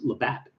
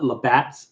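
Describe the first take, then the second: First: The name ends without any s sound. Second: The name ends with an added s sound. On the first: The speaker calls it right. "There's no S there" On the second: The speaker calls it wrong. "So we've been saying it wrong all these years"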